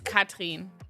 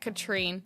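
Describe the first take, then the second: First: The name is said with a German pronunciation. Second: The name is said with an English pronunciation. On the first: This is the original form of the name. "In German, it's Katrin" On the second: This is the form she uses in English. "I pronounce it Katrine"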